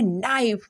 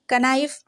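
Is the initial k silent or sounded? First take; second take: silent; sounded. First: The initial k sound is silent. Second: The initial k sound is pronounced. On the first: The speaker calls it right. "इसको पढ़ने वाले हैं नाइफ" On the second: The speaker calls it wrong. "कनाइफ बिल्कुल नहीं पढ़ने वाले"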